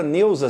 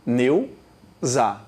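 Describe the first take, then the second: First: Said in the usual way. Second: "Neuza" split slowly into Neu, za with a pause; divisão silábica. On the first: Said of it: "são quantas sílabas". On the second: Shown as a demonstration. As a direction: say "Neuza" syllable by syllable, lower. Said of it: "na palavra Neuza são quantas sílabas". ("Neuza" separado em sílabas: Neu, pausa, za)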